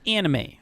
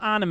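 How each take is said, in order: First: It is said with an English-style pronunciation. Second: It is said with a Japanese-style pronunciation. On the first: The speaker calls it right. "it's anime, okay?" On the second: The speaker calls it wrong. "It's not anime"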